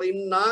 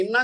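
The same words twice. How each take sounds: First: انا with a lengthened last aa; long final vowel. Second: انا with a brief last a; short final vowel. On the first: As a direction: draw out the end of انا. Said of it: "اس کو ہم نے double پڑھنا ہے". (انا لمبے الف کے ساتھ) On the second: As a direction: keep the end of انا short. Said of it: "انا کا مطلب ہے بے شک". (انا مختصر الف کے ساتھ) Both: Shown as a demonstration.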